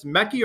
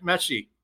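First: "Mekki" with a hard k in the middle; "Mekki", k rather than sh; tentative pronunciation. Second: "Meshi" with a soft sh-type middle; "Meshi", sh rather than k; alternative pronunciation. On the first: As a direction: offer "Mekki" with a k sound, as one option. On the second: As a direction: offer "Meshi" as the other option, unsure. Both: Shown as a demonstration. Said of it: "mispronouncing his last name".

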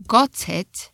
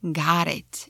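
First: Got it with a clear T, British. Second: Got it with a flapped T, American. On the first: A teacher showing British got it. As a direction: say got it with a crisp T. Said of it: "Or in British". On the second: A teacher showing American got it. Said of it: "in American". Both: Shown as a demonstration.

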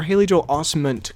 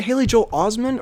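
First: Osment said the other way, questioning; alternative pronunciation. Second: Osment said the first way, as one option; first pronunciation. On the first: Asking how the actor's name is said, alternative version of Osment. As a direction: offer Osment as the contrasting pronunciation. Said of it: "I've been saying that wrong". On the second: Asking how the actor's name is said, first version of Osment. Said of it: "is it Haley Joel Osment or". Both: Shown as a demonstration.

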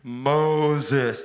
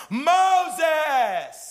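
First: God calling Moses. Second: Loud, high, drawn-out shout of the name; intense call. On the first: Acted. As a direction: call the name from the bush. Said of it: "God called to him". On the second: Shown as a demonstration. God calling Moses with intensity, loud high shout. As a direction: cry out Moses with urgency. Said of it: "It'd be like".

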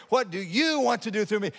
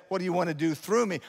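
First: YOU lifted high as the key word; stress on YOU. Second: Said in the usual way. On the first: Acted. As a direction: ask it with the weight on YOU. Repeats question, stressing God.

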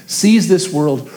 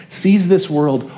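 Both takes have the same delivery.

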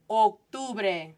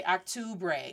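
First: Octubre as "oke-TOO-breh"; closed round O opening Octubre, pure vowels; correct Spanish pronunciation. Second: Octubre as "ahk-TOO-bray"; wrong first vowel. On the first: Teacher modelling the word for learners, Octubre with closed O. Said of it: "O, O". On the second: Teacher showing a half-corrected try, Octubre with English "ah". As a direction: keep an English "ah" opening Octubre. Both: Shown as a demonstration.

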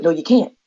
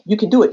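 First: Lower, lightly voiced naysayer; doubting inner voice. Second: Lightly voiced inner cheerleader; encouraging inner voice. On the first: Battle in her head before driving, doubting voice. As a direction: refuse your own encouragement. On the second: Battle in her head before driving, encouraging voice. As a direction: push back at your own doubt. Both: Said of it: "the battle in my head".

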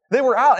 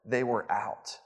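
First: High and loud, punching the word out; punchline emphasis. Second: Hushed, softer apologetic reply; murmured apology to a hungry guest mid-meeting; leaning-down apology. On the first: Shown as a demonstration. Pastor answers his own question to the congregation, emphatic. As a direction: land the punchline hard and bright. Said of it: "What was the reason?". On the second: Retold or imitated. Worker leans down and quietly says they were out. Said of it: "The worker kind of leans down and says".

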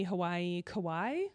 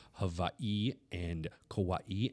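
First: Hawaii, Kauai said flat and unsure, ending on a questioning rise; tentative Hawaii, Kauai as a question; unsure pronunciation. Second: Hawaii and Kauai said slowly in a near whisper, with the weight on the second syllable of each; second-syllable stress. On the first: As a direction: try Hawaii and Kauai with no extra stress. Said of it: "Is that how you say that?". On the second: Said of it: "put an emphasis on the second syllable". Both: Shown as a demonstration.

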